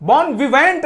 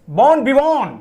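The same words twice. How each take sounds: First: "Bon vivant" ending in a hard "-vent"; wrong spelled-out pronunciation. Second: "Born vivant" with a nasal-style "-von" ending, no final t; French-style pronunciation. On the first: Teacher warns students off this reading, mispronounced ending. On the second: Teacher models the word for students, correct pronunciation. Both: Shown as a demonstration. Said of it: "Bon vivant नहीं पढ़ते".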